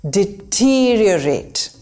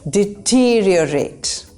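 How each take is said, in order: No difference in how they are said.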